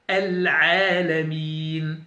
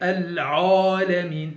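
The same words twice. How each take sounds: First: The ain vowel sounds light and thin. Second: The ain vowel sounds heavy and dark. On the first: The speaker calls it right. "Je dis Al-Alamin" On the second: The speaker calls it wrong. "certains qui emphatisent euh, la lettre Aïn"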